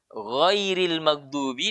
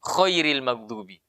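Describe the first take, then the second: First: GHAIRIL MAGHDUBI with gently pressed, voiced gh; soft ghain. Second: KHAIRIL MAGHDUBI, the gh wrongly hardened into a raspy kh; pressed too hard. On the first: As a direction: ease into the gh of GHAIRIL, no hard friction. (ghairil maghdubi, ghain lembut) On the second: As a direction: show the mistake: over-press the first letter of KHAIRIL. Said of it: "terlalu kencang tekanannya". (khairil maghdubi, tekanan terlalu kencang) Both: Shown as a demonstration.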